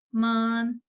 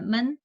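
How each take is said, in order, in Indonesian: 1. Suku katanya panjang dengan nada tinggi datar. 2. Suku katanya pendek, ringan, dan tanpa nada. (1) "Kalau nada satu kan men men ya" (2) "Men ini tidak ada nada, jadi kayak bacanya ringan"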